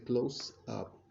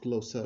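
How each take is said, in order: First: The two words are said separately. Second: The final sound runs into the next word. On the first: The speaker calls it wrong. "He didn't say close up" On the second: The speaker calls it right. "So you can say that it's linking it"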